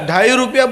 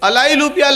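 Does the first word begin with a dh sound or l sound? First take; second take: dh sound; l sound. First: The first word begins with a dh sound. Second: The first word begins with an l sound. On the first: The speaker calls it right. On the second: The speaker calls it wrong.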